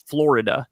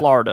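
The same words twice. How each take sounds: First: It is said with a general American accent. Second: It is said with a New York accent. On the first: The speaker calls it right. "it's Florida" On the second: The speaker calls it wrong. "my New York accent"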